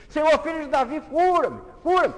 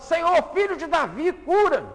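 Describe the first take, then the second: First: Building, ever higher and louder cry; desperate shout. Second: High, loud desperate yell; shouting louder. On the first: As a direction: scream louder each time. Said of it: "O cego começou a gritar". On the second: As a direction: shout above everyone. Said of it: "começa a gritar mais alto". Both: Acted.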